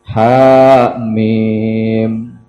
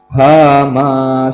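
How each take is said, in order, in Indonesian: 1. Kata ini berakhir dengan bunyi M. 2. Kata ini berakhir dengan vokal terbuka. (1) "Itu yang benar" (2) "ujung-ujungnya hama"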